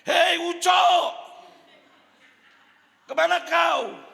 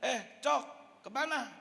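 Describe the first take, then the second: First: The call is said loudly. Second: The call is said softly.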